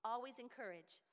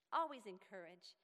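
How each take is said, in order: First: Said in the usual way. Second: Always encourage said again louder and firmer; louder emphatic restatement; emphatic repeat. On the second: Shown as a demonstration. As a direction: press the point home the second time.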